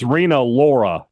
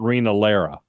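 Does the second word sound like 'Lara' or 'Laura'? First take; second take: Laura; Lara. First: The second word sounds like 'Laura'. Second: The second word sounds like 'Lara'. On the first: The speaker calls it right. "it's Rena Laura" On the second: The speaker calls it wrong. "not Rena Lara"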